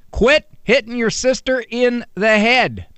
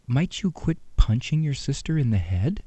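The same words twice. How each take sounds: First: Said in the usual way. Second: Soft sweet request. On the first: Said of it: "Anything above that". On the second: Retold or imitated.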